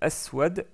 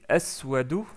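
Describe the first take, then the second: First: The word ends on the bare consonant. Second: The word ends with a short final vowel.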